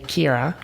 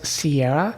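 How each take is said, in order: First: The name begins with a K sound. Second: The name begins with an S sound. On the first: This is how most people say it. "most people say Kira" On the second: This is the speaker's own way of saying it. "I say this as Sierra"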